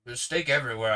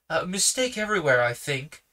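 First: Said in the usual way. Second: Higher and louder, stern rebuke. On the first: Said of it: "reader restarts the line". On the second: Acted. Uncle Felix rebukes the policeman, stern and louder. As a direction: come down hard on the policeman. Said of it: "said Uncle Felix sternly".

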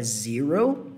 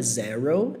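First: "zero" with a long EE, "ZEE-ro"; pronúncia correta de zero. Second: "zero" with an open E as in Portuguese "zéro"; pronúncia errada de zero. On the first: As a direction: draw out English "zero" as "zee-ro". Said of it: "é zero". ("zero" com som de I: "zírou") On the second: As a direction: say "zero" the Brazilian way, open first vowel. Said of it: "então não é zero". ("zero" com E aberto, à brasileira) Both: Shown as a demonstration.

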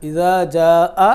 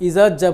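First: ইজা জা আ with the আ held out long over four beats; long four-alif ija-aa. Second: ইজাজ্জা said short with a doubled জ and no long vowel; wrong ijajja. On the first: Teacher modelling the correct recitation, আ held for four alif. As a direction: stretch the final আ of ইজা জা আ long. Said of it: "চার আলিফ পরিমাণ দেরি করে পড়তে হয়". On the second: Teacher showing students the common mistake, ইজাজ্জা said clipped and doubled. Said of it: "ইজাজ্জা হবে না". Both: Shown as a demonstration.

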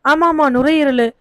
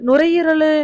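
First: ஆமா, ஆமா, நுரையீரலு said slowly, nodding to himself with a falling ஆமா; recalling it. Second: Nuரையீரலு tried out high and unsure, like a half-remembered word; groping for the word. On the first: Grieving father to Muthumani, slowly confirming நுரையீரலு. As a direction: settle on நுரையீரலு with slow, sure recognition. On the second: Grieving father to Muthumani, unsure of the word, நுரையீரலு tried out. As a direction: reach for நுரையீரலு as if unsure it is right. Father fumbles the disease name. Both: Acted.

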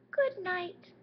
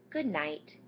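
First: Very high tiny mouse voice; little mouse voice. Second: Said in the usual way. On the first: Acted. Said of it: "The little mouse says". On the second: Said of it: "and says".

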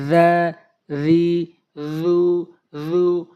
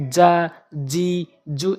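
First: জা, রি, জু said short, tongue tip to the tips of the teeth; জা, রি, জু crisp and quick, no stretching; জা, রি, জু clean from the tongue tip, each vowel short; correct Arabic letter sounds. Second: যা, জি, জু said the Bengali way, not from the tongue tip; যা, জি, জু as the common mistake to avoid; যা, জি, জু with loose Bengali sounds instead of the Arabic letter; wrong pronunciation demo. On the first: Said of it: "জিহ্বার আগা এবং দাঁতের আগা থেকে উচ্চারণ হয়". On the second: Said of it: "এরকম হওয়া যাবে না". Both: Shown as a demonstration.

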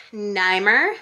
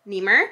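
First: Niemer said as NYE-mer, rising like a question; tentative Niemer with a long eye sound, NYE-mer; first guess at name. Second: Niemer said as NEE-mer, a quick rising retry; corrected name. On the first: Reading a viewer's card, unsure of the name, Niemer as NYE-mer. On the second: Correcting herself on a viewer's name, Niemer as NEE-mer. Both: Shown as a demonstration.

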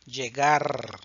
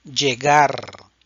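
First: Llegar repeated at normal level, LL like "j" in judge; llegar, the echo take; llegar, repetición normal; quiet repeat llegar. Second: Llegar, louder, the LL said like "j" in judge; Llegar, model it for the class; Llegar, la LL como "ye" fuerte; loud model word Llegar. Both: Shown as a demonstration. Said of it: "El sonido de la doble L".

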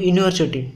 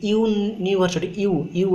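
First: Said in the usual way. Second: ୟୁନିଭର୍ସିଟି slowly, opening "yoo" picked out; pronunciation demo. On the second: Shown as a demonstration. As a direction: sound out ୟୁନିଭର୍ସିଟି, then repeat its first sound ୟୁ. (ୟୁନିଭର୍ସିଟିକୁ ଧୀରେ, ଆରମ୍ଭର ୟୁ ଧ୍ୱନି ସ୍ପଷ୍ଟ କରି କୁହନ୍ତୁ) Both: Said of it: "ଯଦି ଏଟାକୁ ଉଚ୍ଚାରଣ କରିବେ".

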